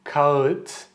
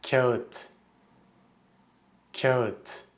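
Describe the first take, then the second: First: Kağıt mispronounced with a rising end; incorrect kağıt. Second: Kağıt pronounced correctly with a falling end. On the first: Teacher showing learners the mistake, mispronounced kağıt. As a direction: say kağıt the wrong way, pitch lifting at the end. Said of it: "it's incorrect". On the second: Teacher modelling the word for learners, correct falling kağıt. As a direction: say kağıt properly, letting the pitch drop. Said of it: "The correct pronunciation is". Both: Shown as a demonstration.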